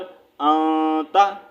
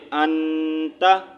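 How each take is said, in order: First: The n is hidden, sounded through the nose. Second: The n is fully sounded, not hidden. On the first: The n has no vowel and the next letter triggers hiding. "इख्फा मतलब हम आवाज़ को छुपा कर निकाल रहे हैं" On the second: The letter carries a doubling mark. "अगर यहाँ पर इसके ऊपर तशदीद साइन होता तो हम पढ़ते"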